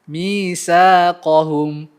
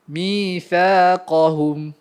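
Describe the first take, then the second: First: The middle consonant is a hissing 's' sound. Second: The middle consonant is a soft 'th' sound. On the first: The speaker calls it wrong. "Kalau tak keluarkan lidah, maka dia akan jadi bunyi sin" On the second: The speaker calls it right. "keluarkan lidah sedikit"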